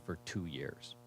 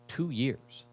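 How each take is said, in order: First: Said in the usual way. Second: "Two" hit high and hard, falling away; stress on two. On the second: Real, not acted. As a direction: lean on "Two" in disbelief. Repeats the phrase for emphasis.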